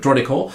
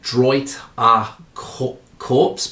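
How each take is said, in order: First: The name is read with French pronunciation. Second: The name is read with English pronunciation. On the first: "I think my pronunciation is terrible, but" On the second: "if you read that in English, it would read"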